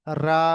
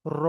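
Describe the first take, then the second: First: রা said thin and light with lips spread wide; spread-mouthed রা. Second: র said full and heavy with rounded lips; round-mouthed র. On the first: Teacher showing the light Quran রা with lips spread. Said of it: "মুখটা ছে-, ছড়িয়ে যাবে". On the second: Teacher showing the heavy Quran র with lips rounded. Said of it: "দেখেন উচ্চারণ করে". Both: Shown as a demonstration.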